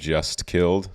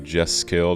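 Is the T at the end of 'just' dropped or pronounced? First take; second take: pronounced; dropped. First: The T at the end of 'just' is pronounced. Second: The T at the end of 'just' is dropped.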